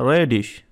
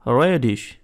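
No difference in how they are said.

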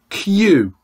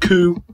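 First: The vowel is a you sound. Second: The vowel is a plain oo sound. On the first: The speaker calls it right. "So can you say you for me?" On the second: The speaker calls it wrong. "We don't say"

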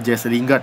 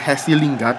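First: The first name is said like an English name. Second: The first name is said like a Spanish name. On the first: The speaker calls it right. "yang benar adalah Jesse Lingard" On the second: The speaker calls it wrong. "bukan Jesse Lingard, yang selama ini gue ngomong Jesse"

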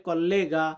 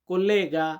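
No difference in how they are said.

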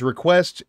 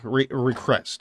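First: The word is said with a normal 'w' sound. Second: The 'w' sound is replaced with an 'r' sound. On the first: "When he says request" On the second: "Everything that has the vaguely W sound has an R sound"

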